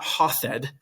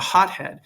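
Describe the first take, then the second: First: The middle is pronounced as one th sound. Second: A t is followed by a separate h. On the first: The speaker calls it wrong. "it's not hothed, right? You don't make it a th sound" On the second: The speaker calls it right. "When you say someone is a hothead"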